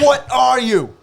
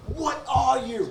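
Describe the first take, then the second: First: High and louder, scornful chef voice; impression of Gordon Ramsay. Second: High, slow, scornful chef voice; impression of Gordon Ramsay. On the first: Friend redoing the celebrity chef line, louder and scornful. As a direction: bark it at the cowering cook. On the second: Friend doing a celebrity chef mocking a contestant, scornful. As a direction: sneer it down at the victim. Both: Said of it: "Gordon Ramsay".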